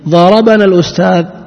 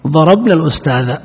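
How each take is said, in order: First: The consonant before 'na' carries an 'a' vowel. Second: The consonant before 'na' has no vowel. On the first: The teacher hit us. "فاعل" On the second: We hit the teacher. "إذا سكننا"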